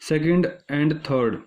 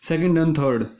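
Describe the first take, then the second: First: "second and third" spaced out word by word; slow deliberate repeat. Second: Said in the usual way. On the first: Shown as a demonstration. Teacher weighs the answer option for students, slow and deliberate.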